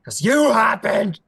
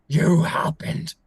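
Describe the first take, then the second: First: Loud, high, drawn-out shout; slow enraged yell; furious accusation. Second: Slow, forceful breath-heavy hiss; loud whispered fury; seething accusation. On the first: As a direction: hurl the blame at her. Prince accuses her in fury. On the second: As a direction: repeat the blame slowly through harsh breath. Repeats accusation, hoarse and slow. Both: Acted.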